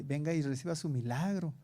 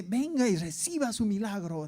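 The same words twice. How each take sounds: First: Said in the usual way. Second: Mock radio ad for miracles, swooping melody; radio announcer imitation. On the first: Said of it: "ya están hasta anunciando en la radio". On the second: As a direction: mimic the advert's showy call. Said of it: "pero era así". (imitando al locutor de un anuncio)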